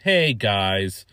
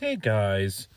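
First: It is said in his normal voice. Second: It is said in a cute voice.

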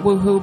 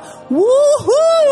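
First: It is said quietly. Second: It is said loudly.

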